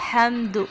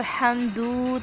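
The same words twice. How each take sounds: First: हमदु with a short, clipped final vowel on दाल. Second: हमदू with the दाल vowel stretched long; wrong long vowel. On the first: Teacher gives the right हमदु, short final vowel. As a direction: keep the end of हमदु short. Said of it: "दाल को लंबा नहीं करना". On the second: Teacher shows the wrong reading हमदू, vowel stretched. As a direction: drag out the end of हमदू. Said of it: "हमदू नहीं पढ़ेंगे, दाल को लंबा नहीं करना". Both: Shown as a demonstration.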